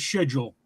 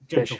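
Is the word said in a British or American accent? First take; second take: British; American. First: It is said with a British accent. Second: It is said with an American accent.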